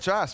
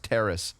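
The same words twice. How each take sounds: First: The word is said with a French pronunciation. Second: The word is said with an English pronunciation. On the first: The speaker calls it wrong. "The French Canadian way" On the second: The speaker calls it right. "it's terrace"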